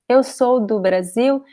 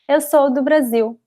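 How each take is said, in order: First: The sentence is spoken slowly and carefully. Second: The sentence is spoken quickly and smoothly. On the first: "I'm speaking slowly" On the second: "usually we say this very fast"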